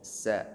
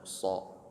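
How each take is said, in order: First: The consonant and vowel sound thin and light. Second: The consonant and vowel sound thick and heavy. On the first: The speaker calls it right. "huruf sin tipiskan sa" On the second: The speaker calls it wrong. "bukan so"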